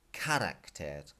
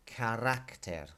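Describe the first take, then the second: First: Slow "carácter" with CA stressed instead of RAC; wrong stress on first A. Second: Slow "carácter" with RAC stressed; stress on second A. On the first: Teacher showing students the mistake, "carácter" stressed on CA. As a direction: hit the first syllable of "carácter", drawn out. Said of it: "tells you this is not". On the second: Teacher modelling the accent mark for students, "carácter" stressed on RAC. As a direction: hit the second syllable of "carácter", drawn out. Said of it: "hitting the second A". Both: Shown as a demonstration.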